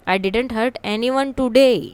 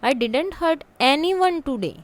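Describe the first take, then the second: First: The word today carries the main stress. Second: The word hurt carries the main stress. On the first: Nobody was hurt today, but maybe on other days. "कि आज मैंने किसी को hurt नहीं किया, बाकी दिन में भी हो सकता है" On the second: Much was said, but nobody was hurt. "I may have spoken a lot many things but not a single person was hurt"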